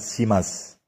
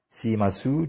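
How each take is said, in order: First: The final vowel is almost silent. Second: The final vowel is fully voiced.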